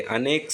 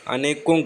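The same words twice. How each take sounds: First: अनेक ending cleanly on k; softer अनेक, no vowel after k; correct bare form. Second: अनेकों with nasal "-kon" ending; wrong plural form. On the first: Teacher giving correct word, अनेक stopping at "k". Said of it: "अनेक सही है". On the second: Teacher flagging an error, अनेकों with added "on". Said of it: "अनेकों गलत है". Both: Shown as a demonstration.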